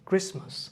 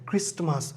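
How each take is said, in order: First: The t in the middle is not pronounced. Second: The t in the middle is pronounced. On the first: The speaker calls it right. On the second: The speaker calls it wrong.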